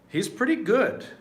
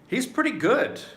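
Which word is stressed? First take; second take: good; good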